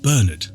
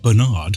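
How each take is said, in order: First: The name is said in a non-American way. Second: The name is said in an American way.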